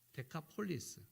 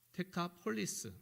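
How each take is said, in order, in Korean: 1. Dekapolis로 발음하며, s로 끝납니다. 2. Dekapolis로 발음하며, s로 끝납니다.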